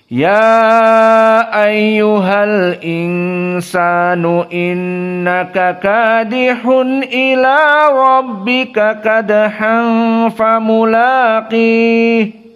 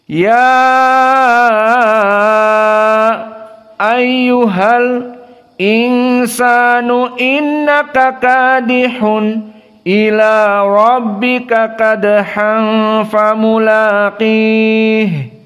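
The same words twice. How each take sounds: First: It flows continuously with medium-length vowels. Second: Long vowels with brief stops after several words. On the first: "dalam keadaan empat harokat... Maka kita baca hanya tawassut di sini saja" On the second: "ya ayyuha di sini al-isba dan ayyuha dalam keadaan as-saqat, al-insan dalam keadaan as-saqat, kadihun dalam keadaan as-saqat"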